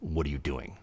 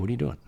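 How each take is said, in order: First: It is said with cold contempt. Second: It is said with warm affection. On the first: The speaker feels hatred toward the listener. "he says it with such disdain" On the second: The speaker feels love toward the listener. "one has a lot of love in it"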